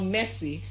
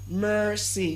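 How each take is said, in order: First: The first vowel is a plain e sound. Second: The first vowel is an r-colored er sound. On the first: The speaker calls it wrong. "It's not messy" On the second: The speaker calls it right. "but mercy"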